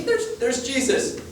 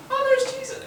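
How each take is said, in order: First: A bit higher, slow and wondering; a hint of Hobbit. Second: Very high squeaky little voice; squeaky Zacchaeus. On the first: Preacher as Hobbit-like Zacchaeus, higher and slowed. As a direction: stretch it out in a small awed voice. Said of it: "Imagine, like, the Hobbits". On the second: Retold or imitated. Preacher mimics short Zacchaeus spotting Jesus, squeaky high. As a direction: squeak it like a tiny excited man. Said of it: "I don't know if you talk like that".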